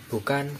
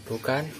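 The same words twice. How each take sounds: Both takes have the same delivery.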